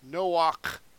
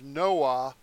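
First: The name ends in a final consonant sound. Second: The name ends in an open vowel sound. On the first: The speaker calls it right. "that last letter is a k" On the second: The speaker calls it wrong. "They mispronounce it in English"

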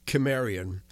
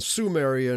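First: The word begins with a hard K sound. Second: The word begins with a soft S sound. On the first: The speaker calls it right. "stick with the Greek pronunciation of Kimmerian" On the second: The speaker calls it wrong. "it's too easily confused with the term Sumerian"

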